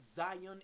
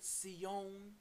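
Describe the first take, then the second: First: The word is said with its English pronunciation. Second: The word is said with its Hebrew pronunciation. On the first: "We pronounce it Zion in the English" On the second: "African Hebrew word Sion"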